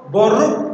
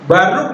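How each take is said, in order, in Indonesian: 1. Vokal pertama adalah bunyi O. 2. Vokal pertama adalah bunyi A. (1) "bisa O" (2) "bisa A"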